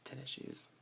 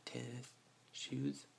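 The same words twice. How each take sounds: First: Tennis shoes said as one word; tennis shoes run together. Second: Tennis shoes said as two clear words; tennis shoes split apart. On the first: Speaker showing the local tennis shoes. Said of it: "but we say". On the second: Speaker showing the form she avoids. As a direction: give tennis and shoes each their own weight. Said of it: "we don't say". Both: Shown as a demonstration.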